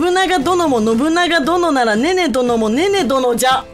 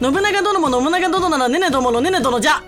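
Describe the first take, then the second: First: It is said at a slower pace. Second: It is said at a faster pace.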